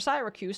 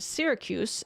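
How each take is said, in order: First: Syracuse is said with a British pronunciation. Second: Syracuse is said with an American pronunciation.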